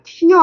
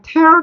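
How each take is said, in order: First: The vowel sounds like the one in "ear". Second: The vowel sounds like the one in "air". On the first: It means a drop from the eye. The speaker calls it wrong. "tear 아니야. 눈물 아니야" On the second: It means to pull apart or demolish. The speaker calls it right. "너네 이거 발음 tear down이야"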